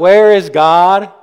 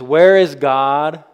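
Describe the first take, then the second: First: It is said almost as a shout. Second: It is said loudly and sternly.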